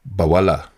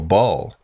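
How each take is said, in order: First: The word is said as three syllables. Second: The word is said as one syllable. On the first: The speaker calls it right. "the proper pronunciation will be more like Bawala" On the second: The speaker calls it wrong. "should have three syllables instead of just one"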